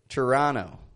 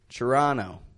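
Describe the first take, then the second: First: The O vowel is an unrounded short O. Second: The same.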